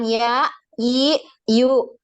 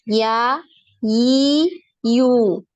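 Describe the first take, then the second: First: Each syllable is cut off with a glottal catch. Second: Each syllable fades out without a glottal catch. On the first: The speaker calls it wrong. "Jangan ya, i, yu. Nah, seperti ada hamzah di belakangnya" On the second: The speaker calls it right. "Sampai berhenti sendiri. Jangan diberhentikan"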